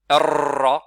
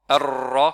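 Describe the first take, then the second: No difference in how they are said.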